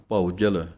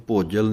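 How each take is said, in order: First: ਭਉ ਜਲ as two separate words, bhau then jal; ਭਉ ਜਲ spoken distinctly; correct pronunciation. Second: ਭੋਜਲ run together as one word with an o sound; ਭੋਜਲ as a single slurred word; wrong pronunciation. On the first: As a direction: keep ਭਉ and ਜਲ apart, clearly. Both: Shown as a demonstration. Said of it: "ਇਹਨੂੰ ਭੋਜਲ ਨਹੀਂ ਕਹਿ ਦੇਣਾ".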